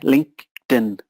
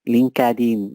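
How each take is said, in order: First: The e in linked is silent. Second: The e in linked is pronounced as a syllable. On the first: The speaker calls it right. "forget the E and disconnect the words" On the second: The speaker calls it wrong. "Please do not say LinkedIn. That's very Spanish"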